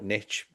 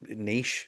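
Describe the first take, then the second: First: The word is pronounced the American way. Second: The word is pronounced the British way. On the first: This is how the listener's country says it. "you call it niche" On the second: This is how the speaker's country says it. "niche over here we pronounce it"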